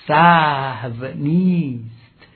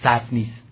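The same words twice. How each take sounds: First: The words are said somewhat drawn out. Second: The words are said short and quickly. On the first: The speaker calls it right. "این دو واژه رو مقداری کشیده تلفظ کنند" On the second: The speaker calls it wrong. "نگن سهو نیست"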